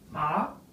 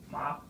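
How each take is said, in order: First: The pitch rises from middle to high. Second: The pitch stays level and high. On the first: It means numb. "the second tone to the same letters as a rising" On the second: It means mother. "the first tone to the word M A, the flat tone"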